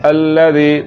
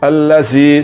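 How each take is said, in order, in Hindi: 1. बीच का व्यंजन नरम है, सीटी की आवाज़ के बिना। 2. बीच का व्यंजन हिस्सिंग है, सीटी की आवाज़ के साथ। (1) "ज़ाल को पढ़ते हुए सीटी की आवाज़ बिल्कुल पैदा नहीं हो रही" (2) "ये ज़ा पढ़ा जा रहा है अल्लज़ी अल्लज़ी, सीटी की आवाज़ आ रही है"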